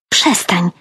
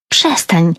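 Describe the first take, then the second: First: Restrained, irritated hiss; mild hiss. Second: Understated cry of protest; mild exclamation. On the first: Annoyed sister silencing teasing, mild hiss. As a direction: cut her off under your breath. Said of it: "syknęła Dasza". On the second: Sister objecting to eye-rolling, mild exclamation. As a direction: exclaim it with restraint. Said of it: "wykrzyknęła Dasza". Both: A narrator's reading.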